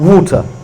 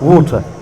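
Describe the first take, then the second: The two takes are said the same way.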